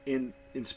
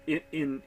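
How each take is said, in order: The two takes are said the same way.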